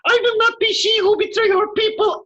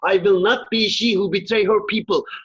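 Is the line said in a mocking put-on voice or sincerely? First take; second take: mocking; sincerely. First: It is said in a mocking, put-on voice. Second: It is said in a plain, sincere voice. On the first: The words are being ridiculed. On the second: The words are repeated as they were really said.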